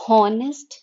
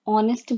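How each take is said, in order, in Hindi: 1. यह शब्द एक साफ सुनाई देने वाली एच ध्वनि से शुरू होता है। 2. यह शब्द स्वर से शुरू होता है, इसमें एच नहीं है। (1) "हम हॉनेस्ट नहीं बोलते हैं" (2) "एच यहाँ पे साइलेंट है"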